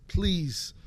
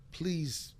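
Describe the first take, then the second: First: Mock pleading, louder and pressing; louder please. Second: Said in the usual way. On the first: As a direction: beg harder the second time. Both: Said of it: "I begged my father".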